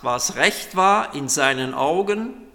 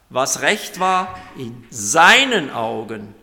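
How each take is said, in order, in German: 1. Die Betonung liegt auf dem letzten Wort, Augen. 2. Die Betonung liegt auf dem Wort seinen.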